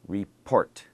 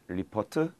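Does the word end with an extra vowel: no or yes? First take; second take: no; yes. First: The word ends without an added vowel. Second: The word ends with an added vowel sound. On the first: The speaker calls it right. "notice the end is just one syllable" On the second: The speaker calls it wrong. "not ripotu"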